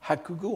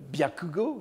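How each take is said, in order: First: The word begins with a 'ha' sound. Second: The word begins with a 'bya' sound. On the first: This is an older, affected reading of the term. "un certain snobisme du Kaon de l'époque pourrait encourager à prononcer Haku plutôt que Byaku" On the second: This is the usual reading of the term. "ce qu'on appelle le byakugo"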